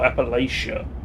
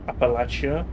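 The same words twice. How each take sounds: First: The middle consonant is a 'sh' sound. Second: The middle consonant is a 'ch' sound. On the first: "Is it more of a sh?" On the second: "I think it's a ch sound"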